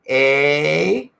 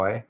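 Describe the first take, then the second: First: The vowel is drawn out and lingering. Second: The vowel is short and dry. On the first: This is how others claim the speaker's people say it. "I don't linger like like the Americans say we do by going" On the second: This is how the speaker actually says it. "I just sort of do a dry"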